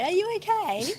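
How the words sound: It sounds like a casual, polite formality.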